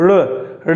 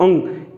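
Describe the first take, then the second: First: The letter is said as a flapped r sound. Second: The letter is said with a nasal ng sound. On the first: The speaker calls it wrong. "कई लोग उच्चारण करते समय भी गलत करते हैं" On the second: The speaker calls it right. "इस प्रकार से अंग का उच्चारण"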